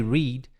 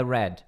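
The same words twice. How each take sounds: First: "read" as "reed", long ee; present-tense pronunciation. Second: "read" as "red", short e; past-tense pronunciation. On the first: English teacher naming the base verb, "read" as "reed". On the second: English teacher giving the past of the verb, "read" as "red". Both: Shown as a demonstration. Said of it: "mas com pronúncia diferente".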